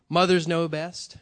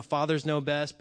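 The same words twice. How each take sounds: First: "mothers" hit louder and drawn out; slow the phrase and punch "mothers"; stress on mothers. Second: Said in the usual way. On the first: Shown as a demonstration. Swapping fathers out for Mother's Day, stressing "mothers".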